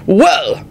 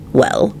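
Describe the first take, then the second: First: Higher, blustering bellow. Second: Mildly pleasant reply. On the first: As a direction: bellow it without a hint of regret. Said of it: "Richard bellowed out unrepentantly". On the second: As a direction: say it pleasantly, at an easy everyday level. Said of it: "Lupin replied pleasantly". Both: A narrator's reading.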